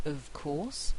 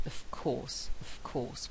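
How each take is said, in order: First: Of course with a clear v sound; careful of course. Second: "of course" said as "off course", a strong f. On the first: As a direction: say "of course" with a voiced v before the k. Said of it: "very often pronounced of course". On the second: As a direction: devoice the v: "of course" becomes "off course". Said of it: "with a very strong f sound there". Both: Shown as a demonstration.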